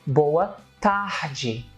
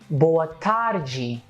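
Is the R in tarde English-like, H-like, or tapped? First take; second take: H-like; tapped. First: The R in tarde sounds like an H. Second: The R in tarde is a tapped R.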